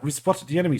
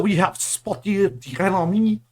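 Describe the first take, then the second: First: It is said without a French accent. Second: It is said with an exaggerated French accent.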